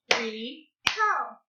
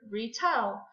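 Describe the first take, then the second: First: "Retell" split into two separate beats; clapped syllables. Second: Said in the usual way. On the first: Shown as a demonstration. Teacher clapping out a word for pupils, syllable by syllable. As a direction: say "Retell" as re, pause, tell. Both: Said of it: "Let's clap it out".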